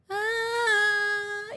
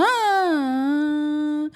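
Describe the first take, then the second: First: Put-on high wail rising in pitch like a crying baby; imitating a French newborn crying in a rising melody. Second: Put-on loud baby wail that starts strong and falls away; imitating a German newborn crying with a falling melody. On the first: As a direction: start a baby's cry and slide it upward. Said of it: "vamos a hacer como un bebé francés". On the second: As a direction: blast a baby's cry then let it drop. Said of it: "los alemanes eran como". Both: Shown as a demonstration.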